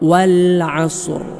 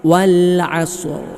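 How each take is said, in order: First: The final r sound is clearly heard. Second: The final r sound is clearly heard.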